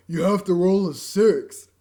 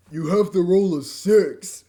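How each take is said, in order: First: You have to roll a six, slowed and a little louder once more; slow retake. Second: You have to roll a six, slowed and a little louder; slow character line. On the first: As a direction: repeat the game character's order slowly. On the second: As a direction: read the game character's order slowly. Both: Acted. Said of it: "I screwed up my line".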